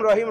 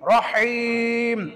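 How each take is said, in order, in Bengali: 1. "h" ধ্বনিটি হালকা এবং স্বাভাবিক। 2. "h" ধ্বনিটি গলা থেকে জোরালো। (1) "এমনি আমাদের নর্মাল ভাবে হয়ে যাবে রহিম" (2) "সঠিকটা কি?"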